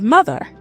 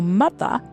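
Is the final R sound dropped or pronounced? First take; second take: pronounced; dropped. First: The final R is pronounced. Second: The final R is dropped. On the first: "instead of" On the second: "people were saying ... instead of"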